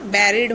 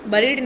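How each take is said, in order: First: The first vowel sounds like 'eh'. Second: The first vowel sounds like 'uh'. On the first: The speaker calls it right. "बैरिड होता है" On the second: The speaker calls it wrong. "बरीड नहीं होता"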